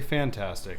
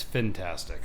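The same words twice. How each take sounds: First: The first syllable is said as 'fan'. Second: The first syllable is said as 'fin'. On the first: The speaker calls it wrong. "do not say fantastic" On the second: The speaker calls it right. "It's fantastic"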